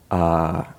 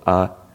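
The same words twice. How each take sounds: First: The vowel is held twice as long. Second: The vowel is short.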